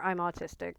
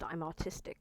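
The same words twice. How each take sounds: First: Said in the usual way. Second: Soft unvoiced whisper, almost secret; whispered aside. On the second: Real, not acted. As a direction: breathe it out as a quiet confession. Quiet aside before repeating it.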